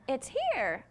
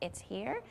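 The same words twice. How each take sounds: First: The voice falls at the end like a statement. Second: The voice rises at the end like a question. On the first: It states a fact. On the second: It asks whether it is there.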